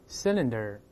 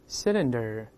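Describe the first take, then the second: No difference in how they are said.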